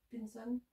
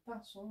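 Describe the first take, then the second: First: Pinson with a clear "pin" and sounded final n; English-style pronunciation. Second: Pinson with a French nasal first vowel; French pronunciation. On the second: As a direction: say Pinson the French way, softly, "pain-son". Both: Real, not acted. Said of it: "je pense que ça se dit".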